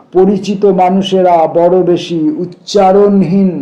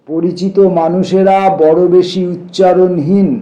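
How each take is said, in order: Both takes have the same delivery.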